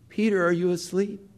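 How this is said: It sounds gentle, disappointed and yearning. The speaker longs for sympathy and help. The speaker calls it right. "very understanding... great disappointment... a yearning"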